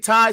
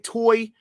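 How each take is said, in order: First: The vowel sounds like the word 'tie'. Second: The vowel sounds like the word 'toy'. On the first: "some people say tie" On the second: "some people say toy. I say toy"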